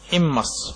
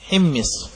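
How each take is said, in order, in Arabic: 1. الحركة الأولى i، والثانية a. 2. كلتا الحركتين في الكلمة i. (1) "أو فتح الميم" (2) "بكسر الحاء وكسر الميم"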